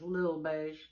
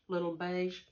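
First: The first word is a clipped one-syllable 'lil'. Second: The first word is a full two-syllable 'little'. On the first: The speaker calls it right. "it says Lil, L-I-L" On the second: The speaker calls it wrong. "Don't say little"

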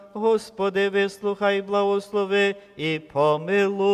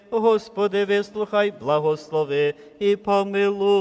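The two takes are said the same way.

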